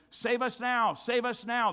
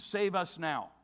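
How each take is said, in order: First: Higher, louder pleading call of the crowd; crowd's cry. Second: Said in the usual way. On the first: Retold or imitated. Preacher voices the crowd begging for rescue, pleading call. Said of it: "it would have been". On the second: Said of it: "which means".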